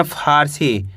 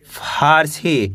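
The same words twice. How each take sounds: First: Said in the usual way. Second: Slow teacher blending of Farsi. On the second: Shown as a demonstration. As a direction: stretch Farsi out slowly, sound by sound. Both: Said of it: "कैसे पढ़ेंगे?".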